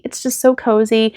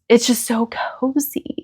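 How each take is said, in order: First: Said in the usual way. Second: Whispered, soft and dreamy. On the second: Real, not acted. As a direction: breathe it out as a hushed aside. Cosy podcast space, repeated softly.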